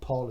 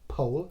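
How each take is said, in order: First: The vowel sounds like the one in 'Paul'. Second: The vowel sounds like the one in 'pole'. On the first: The speaker calls it wrong. "It's not Paul" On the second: The speaker calls it right. "it's Polestar. Pole"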